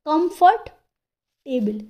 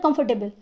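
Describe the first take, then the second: First: The word is said slowly with a pause inside. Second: The word is said quickly with no pause inside. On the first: "ऐसे करके तो बोलते हैं। पॉज आ रहा है ना बोलते वक्त" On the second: "एकदम से ना हम मुंह से बोलते हैं"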